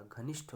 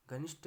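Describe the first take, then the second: First: घनिष्ठ ending in aspirated ठ; correct pronunciation. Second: घनिष्ठ ending in unaspirated ट; wrong pronunciation. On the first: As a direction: say घनिष्ठ as "ghanishth", with a puff. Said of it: "होता है". (घनिष्ठ के अंत में महाप्राण ठ बोलें) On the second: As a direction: say घनिष्ठ as "ghanisht", no puff. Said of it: "नहीं होता". (घनिष्ठ के अंत में ठ की जगह ट बोलें) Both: Shown as a demonstration.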